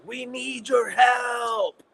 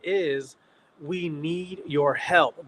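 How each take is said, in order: First: It is said in a very dramatic way. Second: It is said plainly, without drama.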